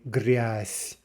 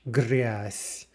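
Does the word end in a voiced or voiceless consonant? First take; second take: voiceless; voiceless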